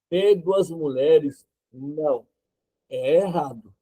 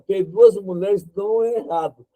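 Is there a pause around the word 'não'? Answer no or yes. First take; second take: yes; no. First: It is said with pauses around 'não'. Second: It is said without pauses around 'não'. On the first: Having two wives is wrong. The speaker calls it right. "e respeitando a vírgula" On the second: Having two wives is not wrong. The speaker calls it wrong. "Eu não respeitei a vírgula"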